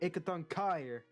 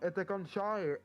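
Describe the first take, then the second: First: The second word begins with a hard k sound. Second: The second word begins with an sh sound. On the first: The speaker calls it right. "you don't say C H, C H as sh" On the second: The speaker calls it wrong. "And he was like"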